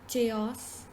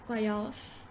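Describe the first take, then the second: Both takes have the same delivery.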